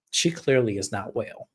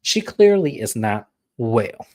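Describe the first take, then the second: First: Said in the usual way. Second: "She clearly is not well" drawn out slowly; slow emphatic repeat. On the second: Real, not acted.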